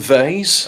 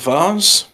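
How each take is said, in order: First: Vase is said the American way. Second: Vase is said the non-American way.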